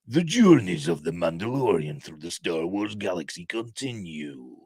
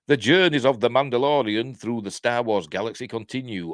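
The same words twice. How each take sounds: First: It is read in a dramatic movie-trailer voice. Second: It is read in the speaker's ordinary voice.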